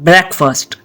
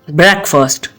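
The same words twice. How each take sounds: The two takes are said the same way.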